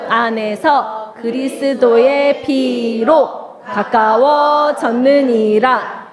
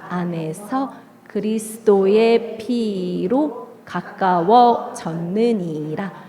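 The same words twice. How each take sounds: First: It is said loudly and with strong energy. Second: It is said softly in a quiet voice. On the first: "우리 힘차게 해보도록 하겠습니다" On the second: "조용한 목소리로"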